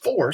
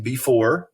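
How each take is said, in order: First: "for" as "before" minus its first syllable; clipped word "'fore". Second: Said in the usual way. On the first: Shown as a demonstration. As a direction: drop the "be" and say only "for". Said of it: "it's just for". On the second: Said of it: "instead of saying before".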